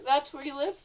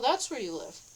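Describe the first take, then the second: First: It is said in a plain, neutral tone. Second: It is said with a marked, pointed tone. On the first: The speaker calls it right. "They said it normal" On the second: The speaker calls it wrong. "That not like that"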